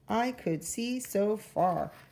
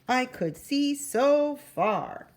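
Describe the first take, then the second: First: It is said flatly, without extra energy. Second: It is said with lots of energy.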